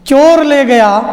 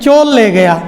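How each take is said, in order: First: It is said slowly with a clear r sound. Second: It is said quickly with the r becoming l.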